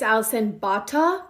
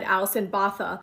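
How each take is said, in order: First: The surname is said like 'Bata'. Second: The surname is said like 'Botha'. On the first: The speaker calls it right. "but I think it's" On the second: The speaker calls it wrong. "back then I pronounced her name wrong. I said"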